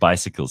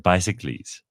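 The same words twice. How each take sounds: First: The word is said in its usual way. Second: The word is said like a Greek hero's name. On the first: "Instead of"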